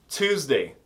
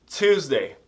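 The two takes are said the same way.

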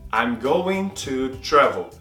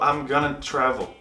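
First: Going to is said fully at a slower pace. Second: Going to is reduced to gonna, spoken faster.

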